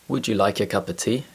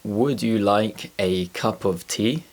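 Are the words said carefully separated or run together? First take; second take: run together; separated. First: The words run together with sounds changing. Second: Each word is said slowly and separately. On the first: "when I speak naturally, listen to how the sounds transform" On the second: "When I speak slowly, it's easy to understand"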